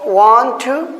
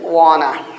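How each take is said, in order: First: It is said as two full separate words. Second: It is run together into one reduced word.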